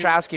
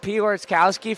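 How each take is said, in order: First: The name starts with 'Pet' and sounds shorter. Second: The name starts with 'Pior' and has extra sounds. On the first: The speaker calls it right. "before Petrowski sticks in my head" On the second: The speaker calls it wrong. "I've been saying Piorskowski for so long"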